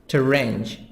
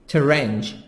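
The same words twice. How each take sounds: No difference in how they are said.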